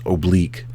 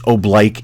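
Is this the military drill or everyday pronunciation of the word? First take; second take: everyday; military. First: It uses the ordinary everyday pronunciation. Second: It uses the military drill pronunciation. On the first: It is the form used outside the military. "It's actually pronounced oblique" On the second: It is the form used in military commands. "It's pronounced oblique in the command, but it uh, that's only for the military"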